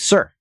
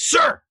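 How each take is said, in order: First: It is said a little louder. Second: It is said loudest of all.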